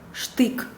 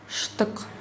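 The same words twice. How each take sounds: First: The vowel is full, as in Russian. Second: The vowel is short, as in Tatar. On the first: "произносится точно так же, как в русском языке" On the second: "я прочитала по-татарски"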